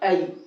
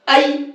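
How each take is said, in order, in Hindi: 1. यह अक्षर नरमी और कोमलता से बोला गया है। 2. यह अक्षर सख़्त और ज़ोर से बोला गया है। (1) "तीसरा नरमी से पढ़ा है" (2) "ये सख्ती से हो जाएगा"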